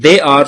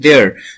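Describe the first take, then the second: First: The two words are said fully and separately. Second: The two words are merged into one contracted syllable. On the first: "Like they are" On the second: "they are pronouncing there"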